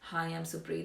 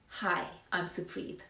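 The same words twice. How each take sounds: First: It is said flatly, without energy or warmth. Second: It is said brightly, confidently, with a smile. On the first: The speaker seems uninterested in engaging. The speaker calls it wrong. "if I talk like that, then no one's going to be interested" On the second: The speaker seems keen to engage. The speaker calls it right. "Be confident and start your introduction with a smile"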